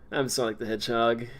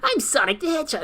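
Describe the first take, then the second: First: It is said in a deep, grown-adult voice. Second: It is said in a childish, nasal voice.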